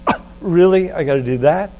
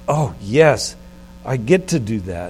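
First: It sounds reluctant and burdened. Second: It sounds glad and delighted.

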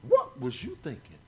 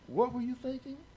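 First: It sounds accusing and belittling. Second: It sounds curious and inquiring. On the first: The listener is being put down. The speaker calls it wrong. "don't say this to your wife" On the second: The speaker genuinely wants to know. The speaker calls it right. "I'm asking a question. Instead of putting you down"

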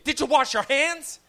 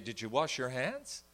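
First: It is asked in a panicked, anxious tone. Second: It is asked in a calm, relaxed tone.

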